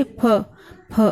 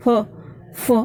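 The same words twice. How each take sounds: First: फ with both lips closing, a puffed p sound; demonstrating फ. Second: फ said with air through the teeth, lips apart, like f; demonstrating फ़. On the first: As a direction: show फ as lips touch. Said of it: "आप बोल के देखिए". (होंठ मिलाकर फ का उच्चारण) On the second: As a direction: let air hiss out for फ. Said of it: "मुंह से हवा निकल रही है". (होंठ अलग रखकर हवा के साथ फ़) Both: Shown as a demonstration.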